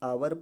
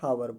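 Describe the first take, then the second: First: The word begins with a vowel sound. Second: The word begins with an h sound. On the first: The speaker calls it right. "आवर पढ़ा जाएगा" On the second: The speaker calls it wrong. "ना कि हावर पढ़ा जाएगा"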